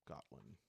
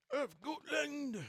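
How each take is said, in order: First: Said in the usual way. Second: A high, slow, hammed-up try at a Scottish accent on "Of Gotland!"; attempted Scottish accent. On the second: Shown as a demonstration. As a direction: stretch out "Of Gotland!" in a clumsy mock Scottish accent. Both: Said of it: "That's not Scottish, right?".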